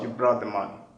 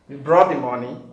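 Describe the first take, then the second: First: The voice falls at the end. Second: The voice rises at the end. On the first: It is a statement. "instead of" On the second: It is a question asking for an answer. "It is usually shown by a rising intonation"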